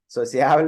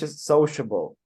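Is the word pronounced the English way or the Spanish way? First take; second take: Spanish; English. First: It is pronounced with Spanish sounds. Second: It is pronounced with English sounds. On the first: The speaker calls it wrong. "is in Spanish" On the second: The speaker calls it right. "in English"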